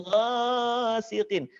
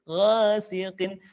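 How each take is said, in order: First: "ghasiqin" with first vowel stretched; overlong vowel. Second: "Ghasiqin" with shorter swayed a; measured vowel. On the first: Teacher warns against overholding, long "ghasiqin". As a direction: drag out "gha" in "ghasiqin". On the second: Teacher models the fix, measured "Ghasiqin". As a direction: swing "Gha" without overholding. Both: Shown as a demonstration. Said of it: "tidak kepanjangan".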